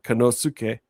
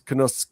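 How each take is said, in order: First: The u after the s is fully voiced. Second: The u after the s is nearly silent. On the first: The speaker calls it wrong. "is not Konosuke" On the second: The speaker calls it right. "it's Konosuke. ... the U is more silent"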